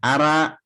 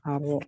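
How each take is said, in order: First: The r and vowel sound thin and light. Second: The r and vowel sound full and heavy. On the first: The speaker calls it wrong. "ara salah" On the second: The speaker calls it right.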